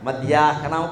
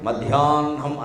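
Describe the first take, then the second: First: The h sound comes before the n. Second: The h sound comes after the n. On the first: The speaker calls it wrong. "హా కింద నా ఒత్తు పెట్టినట్టు మాట్లాడకూడదు" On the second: The speaker calls it right. "నా కింద హా ఒత్తు పెట్టినట్టు మాట్లాడాలి"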